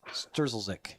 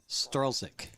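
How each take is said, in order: First: The name has an extra z sound near the start. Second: The name has no z sound near the start. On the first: The speaker calls it wrong. "Because I said Sturzelzik" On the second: The speaker calls it right. "So you don't pronounce the first Z"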